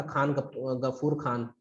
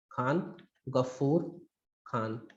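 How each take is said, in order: First: Said in the usual way. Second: Khan Ghafoor Khan word by word, low and soft, with pauses; slow dictation. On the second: Shown as a demonstration. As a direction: spell out Khan Ghafoor Khan very slowly for note-takers. Name repeated slowly for students.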